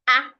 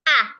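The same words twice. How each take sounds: First: The vowel is short without a rising pitch. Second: The vowel is long with a rising pitch. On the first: The speaker calls it wrong. "instead of ah" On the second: The speaker calls it right. "we use longer, ... a rising tone"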